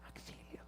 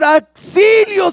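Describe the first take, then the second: First: The word is said quietly and calmly. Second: The word is shouted loudly and urgently. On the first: The speaker calls it wrong. "no se dice auxilio" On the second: The speaker calls it right. "se grita para que me escuchen"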